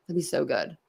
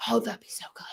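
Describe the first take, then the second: First: Said in the usual way. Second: Whisper. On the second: Real, not acted. Excited whisper about calling in.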